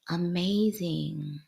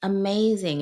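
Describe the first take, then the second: First: Amazing stretched slow and hushed, savoring it; a slow wistful amazing; drawn-out amazing. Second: Amazing punched louder and higher with a falling finish; a bright emphatic Amazing; emphatic repeat. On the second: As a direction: hit Amazing hard the second time. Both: Real, not acted.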